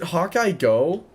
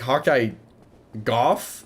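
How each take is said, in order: First: The last name ends in a plain vowel. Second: The last name ends with an f sound. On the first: The speaker calls it wrong. "Is it Hawkeye Go" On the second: The speaker calls it right. "like cough, but with a G"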